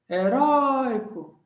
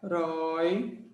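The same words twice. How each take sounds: First: "Heróico" with RÓI high, loud and long; sílaba forte esticada. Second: "Heróico" as HE, RÓI, CO with long gaps, pitched lower; separando sílabas. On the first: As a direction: swell hard on the RÓI of "Heróico". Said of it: "sílaba forte". ("Heróico" com RÓI agudo, forte e esticado) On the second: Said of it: "vamos separar". ("Heróico" pausado, sílaba por sílaba, mais grave) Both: Shown as a demonstration.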